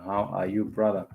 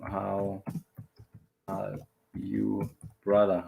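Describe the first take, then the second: First: Said in the usual way. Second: "How ... are you ... brother" with long breaks between parts; word by word. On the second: Shown as a demonstration. Teacher drilling a greeting for learners, word by word.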